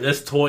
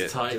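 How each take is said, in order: First: Tight is said in an Australian accent, like toy. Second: Tight is said in a plain, non-Australian accent.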